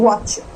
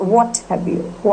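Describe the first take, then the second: First: The words are run together quickly into one. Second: Each word is said separately and fully.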